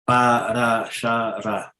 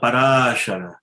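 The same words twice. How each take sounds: First: No syllable is stressed; syllables are even. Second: One syllable carries a stress accent. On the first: The speaker calls it right. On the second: The speaker calls it wrong. "it's not parashara"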